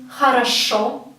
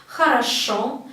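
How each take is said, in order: The two takes are said the same way.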